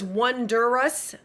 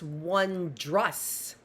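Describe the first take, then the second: First: It is said with three syllables, wonder-ous. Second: It is said with two syllables, won-drous. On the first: The speaker calls it wrong. "I thought it was Wondrous. R W O N D E R O U S, but it's not" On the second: The speaker calls it right. "It's Wondrous"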